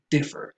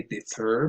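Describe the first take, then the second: First: Differ with DIF stressed; first-syllable stress. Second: Differ with FER stressed; di-FUR for differ; instinctive wrong stress. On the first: Introducing a tricky word, differ stressed on DIF. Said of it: "the stress goes on". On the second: Showing the learner's instinctive mistake, differ stressed on FER. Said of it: "might want to say". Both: Shown as a demonstration.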